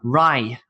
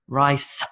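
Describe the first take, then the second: First: The word ends without a final s sound. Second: The word ends with a clear s sound. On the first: The speaker calls it wrong. "I hear Vietnamese speakers say" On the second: The speaker calls it right. "No, it's rice"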